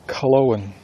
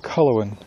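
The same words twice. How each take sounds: First: The name is said not rhyming with Bronwyn. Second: The name is said to rhyme with Bronwyn. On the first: This is how the author intends it. "But her, it's Culloen" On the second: This is how a reader would guess it from the spelling. "when I see that, I see Culloen. Like Bronwyn"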